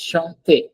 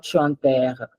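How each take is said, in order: First: Chanter as shon-TAY, ending in a closed ay; two-syllable pronunciation. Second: Chanter as shon-TAIR, ending in open eh; wrong open ending. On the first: Teacher models the word for students, two syllables. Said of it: "it's two syllable word". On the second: Teacher shows the mistake to avoid, open ending. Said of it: "This is not chanter". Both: Shown as a demonstration.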